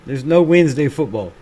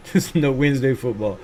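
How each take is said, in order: First: Said in the usual way. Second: Softer, laughing through it; chuckling repeat. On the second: Shown as a demonstration. Streamer chuckling the line back to chat. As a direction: laugh it off as you say it.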